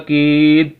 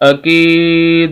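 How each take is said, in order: First: The final d stops flat with no bounce. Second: The final d is released with a vibrating bounce. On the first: "अगर हम कलकला नहीं करेंगे" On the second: "अगर हम कलकला करेंगे"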